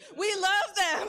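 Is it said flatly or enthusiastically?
enthusiastically. It is said with lively enthusiasm.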